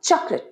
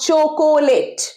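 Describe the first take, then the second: First: The word is said with two syllables. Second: The word is said with three full syllables. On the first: The speaker calls it right. "চকলেট আরেকবার চকলেট right" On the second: The speaker calls it wrong. "Not চোকোলেট"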